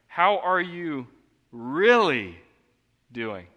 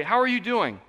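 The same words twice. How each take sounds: First: "really" leaned on, slow and loud; slow down and land on "really"; stress on really. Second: Higher, louder breezy greeting; casual greeting. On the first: Shown as a demonstration. Pastor demonstrating the sincere question, stressing "really". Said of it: "It's just by adding one word". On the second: Retold or imitated. Pastor mimicking a hollow church greeting, breezy. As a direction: toss off an empty hello. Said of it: "You do not mean that".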